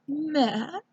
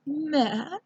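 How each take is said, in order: First: It is said in a put-on fancy voice. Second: It is said in a put-on fancy voice.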